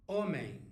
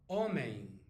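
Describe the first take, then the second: Both takes have the same delivery.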